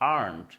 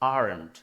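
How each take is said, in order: First: It is said with an American accent. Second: It is said with an American accent.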